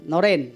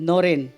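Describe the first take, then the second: Both takes have the same delivery.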